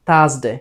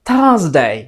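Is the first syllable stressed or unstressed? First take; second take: unstressed; stressed. First: The first syllable is said without extra stress. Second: The first syllable is said with strong stress. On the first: The speaker calls it wrong. "এটাকে যদি pressure ছাড়া বলি" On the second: The speaker calls it right. "যদি pressure দিয়ে বলি"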